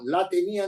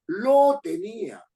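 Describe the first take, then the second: First: "La" stressed as the wrong choice; wrong pronoun. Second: "Lo" punched higher and slow; stress on LO. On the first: Teacher showing students the wrong form "La tenía". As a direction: lean on "La tenía" as the error. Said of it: "No la tenía en la mano". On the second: Teacher correcting students with a slow stress on "Lo". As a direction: drag out "Lo tenía", hitting "Lo". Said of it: "Juan lo tenía en la mano". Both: Shown as a demonstration.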